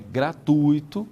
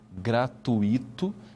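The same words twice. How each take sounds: First: The stress falls on the U syllable. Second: The stress falls on the I syllable. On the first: The speaker calls it right. "Esse U que está aí é mais forte que o I" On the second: The speaker calls it wrong. "não se pode dizer gratuito"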